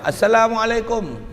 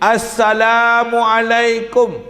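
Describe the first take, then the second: First: It is said softly. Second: It is said louder.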